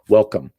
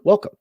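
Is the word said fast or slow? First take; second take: slow; fast. First: It is said slowly, syllable by syllable. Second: It is said quickly, syllables blended together. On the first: "You can hear there's two uh, two uh, units of pronun- pronunciation there" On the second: "we usually say it fast, so it comes out like"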